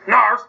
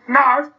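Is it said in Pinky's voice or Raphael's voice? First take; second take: Raphael's; Pinky's. First: It is said in Raphael's voice. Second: It is said in Pinky's voice.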